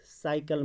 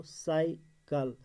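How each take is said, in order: First: Said in the usual way. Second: cycle slowly, sai, pause, kal; split into syllables. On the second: Shown as a demonstration. Teacher showing the word has two syllables, split into syllables. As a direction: break cycle into two drawn-out beats. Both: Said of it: "cycle में दो".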